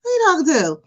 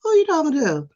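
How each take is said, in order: First: Raised, sassy challenge on the quote; sassy comeback. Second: Raised, sassy challenge; sassy comeback. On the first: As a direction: snap back with attitude, still in you. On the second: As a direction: snap back at a customer with attitude. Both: Retold or imitated. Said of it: "I'll be like".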